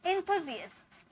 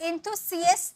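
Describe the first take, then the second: First: The middle consonant is a z sound. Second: The middle consonant is an s sound. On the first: The speaker calls it right. "जी पढ़ेंगे" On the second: The speaker calls it wrong. "इंथुसियस्ट नहीं, सी से नहीं पढ़ेंगे"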